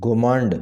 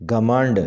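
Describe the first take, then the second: First: گھمنڈ with a rounded first vowel, "ghomand"; mispronounced. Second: گھمنڈ with a short a first, "ghamand"; correct pronunciation. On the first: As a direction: say گھمنڈ as gho-MAND. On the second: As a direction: say گھمنڈ as gha-MAND. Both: Shown as a demonstration. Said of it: "ٹھیک طریقے سے اس طرح".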